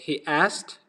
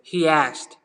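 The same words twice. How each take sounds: First: The two words are said without a linking sound. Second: An extra glide sound links the two words. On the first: The speaker calls it wrong. "instead of saying" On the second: The speaker calls it right. "you want to say"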